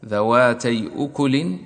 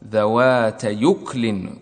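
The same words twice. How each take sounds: First: ذواتي أكل with the hamza of أكل pronounced clearly. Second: ذوات يكل, the hamza dropped and its vowel moved onto the ya; Warsh transfer reading. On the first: Teacher showing the original form with hamza. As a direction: say ذواتي أكل keeping the glottal stop in أكل. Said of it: "تنقل حركة الهمزة". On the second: Teacher demonstrating the Warsh reading with the hamza moved. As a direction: read ذوات يكل slowly, joining the ya to the word. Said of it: "ورش يقرأ بإسكان الكاف". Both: Shown as a demonstration.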